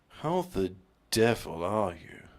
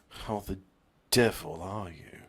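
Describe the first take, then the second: First: It is said with strong, forceful energy. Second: It is said with mild, ordinary energy. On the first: The speaker calls it right. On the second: The speaker calls it wrong.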